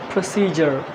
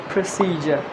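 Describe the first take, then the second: The two takes are said the same way.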